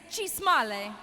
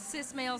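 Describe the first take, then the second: First: The first word begins with a ch sound. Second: The first word begins with an s sound. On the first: It sounds cute and funny. "I've come up with a new way to say cis male, and it's funnier" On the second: It sounds mean. "cis male sounds mean"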